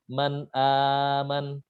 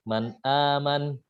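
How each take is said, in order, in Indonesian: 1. Vokal yang dipanjangkan ditahan selama waktu sedang. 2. Vokal yang dipanjangkan ditahan selama waktu pendek. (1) "empat harokat" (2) "dibaca dua harokat"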